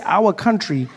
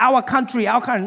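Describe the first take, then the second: First: Said in the usual way. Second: "our country" in a mock Asian accent; Asian car dealer. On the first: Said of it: "but when you say". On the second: Dealer boasting to customer, mock Asian accent. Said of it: "there's this Asian gentleman helping me".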